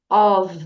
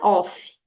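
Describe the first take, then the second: First: The word ends with a V sound. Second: The word ends with an F sound. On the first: The speaker calls it right. "O som é V. Então, of" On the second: The speaker calls it wrong. "não é off"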